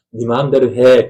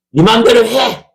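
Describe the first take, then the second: First: Lowered, milder delivery. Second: Raised, forceful exclamation. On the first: Preacher offering the other reading of God's words, lowered tone. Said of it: "낮추느냐". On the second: Preacher asking how God said "do as you please", raised tone. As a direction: lift the voice sharply on 네 마음대로 해. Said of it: "높이느냐, 낮추느냐". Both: Shown as a demonstration.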